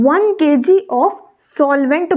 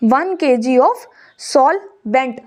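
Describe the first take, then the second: First: Said in the usual way. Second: One K G of solvent, each word drawn out very slowly; very slow dictation. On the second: Shown as a demonstration. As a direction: repeat it slowly so they can write it. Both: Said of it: "repeated slowly for writing".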